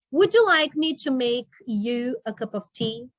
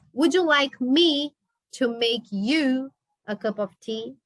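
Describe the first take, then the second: First: Said in the usual way. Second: Slower, each word spaced out; teacher repeating the question slowly for students; slow model reading. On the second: Shown as a demonstration. Teacher repeats it slowly so the class can follow.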